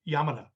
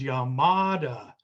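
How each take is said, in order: First: All syllables are said evenly and flat. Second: One syllable of the name is stressed. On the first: This is how the man says his own name. The speaker calls it right. "if you listen to him say his name, Yamada, it, it's very flat" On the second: This is how Americans say it. The speaker calls it wrong. "we would say his name is Yamada because we put stresses on syllables"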